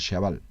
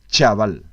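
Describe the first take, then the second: First: The first sound is a softened, sh-like ch. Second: The first sound is a crisp, sharp ch. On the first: "se relaje ese sonido che" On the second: "debe sonar algo así como chaval"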